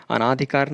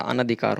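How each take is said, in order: First: अनाधिकार with long "naa"; wrong form. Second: अनधिकार with short "na"; correct form. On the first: Teacher rejecting a misspelling, अनाधिकार with long "naa". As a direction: open the second syllable of अनाधिकार to long aa. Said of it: "अनाधिकार नहीं होता". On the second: Teacher giving the correction, अनधिकार with short "na". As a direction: keep the second vowel of अनधिकार short. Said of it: "अनधिकार होता है". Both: Shown as a demonstration.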